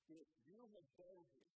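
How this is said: It sounds disappointed.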